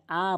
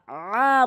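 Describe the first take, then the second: First: "আ" short, without throat pressure; wrong light hamza. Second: "আ" long, swelling from a squeezed throat; pressed ain. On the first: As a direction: say "আ" plainly, the mistake for ain. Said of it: "আ বলা যাবে না". (চাপ ছাড়া "আ") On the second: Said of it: "বলতে হবে চাপ দিয়ে". (চাপ দিয়ে আইনের "আ") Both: Shown as a demonstration.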